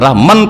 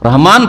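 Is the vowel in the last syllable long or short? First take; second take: short; long. First: The last syllable has a short vowel. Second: The last syllable has a long vowel. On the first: The speaker calls it wrong. "রহমান তো পড়ছেন না" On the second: The speaker calls it right. "খাড়া আলিফ একটা দেওয়া হয়, না দিলেও পড়তে হয়"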